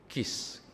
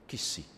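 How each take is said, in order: First: The name ends on a consonant, no vowel. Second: The name ends with an added vowel sound.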